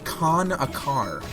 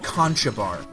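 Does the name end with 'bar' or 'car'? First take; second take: car; bar. First: The name ends with a 'car' sound. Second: The name ends with a 'bar' sound. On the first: The speaker calls it right. "It's actually pronounced Con-a-Car" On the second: The speaker calls it wrong. "looks like it should be spelled, uh, pronounced Conchabar"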